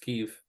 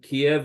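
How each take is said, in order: First: The name is said the Ukrainian way, Kyiv. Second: The name is said the Russian way, Kiev. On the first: This form is what the people of the country call it. The speaker calls it right. "So it's Kiev" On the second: This form comes from the language of an occupying power. The speaker calls it wrong. "Kiev is the Russian pronunciation of the city"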